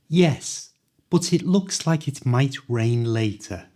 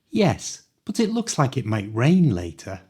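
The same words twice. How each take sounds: First: The sentence is spoken a little faster. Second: The sentence is spoken at full natural speed. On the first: "this time a little faster" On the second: "at the speed native people speak"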